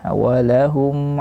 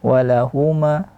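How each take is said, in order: First: The final m is held fully closed. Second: The final m is released with an added vowel. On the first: The speaker calls it right. "harus tahqiqus sukun" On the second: The speaker calls it wrong. "tidak boleh dipantulkan bunyi mim"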